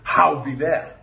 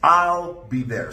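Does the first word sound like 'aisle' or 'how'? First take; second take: how; aisle. First: The first word sounds like 'how'. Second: The first word sounds like 'aisle'. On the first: The speaker calls it wrong. "it is not" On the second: The speaker calls it right.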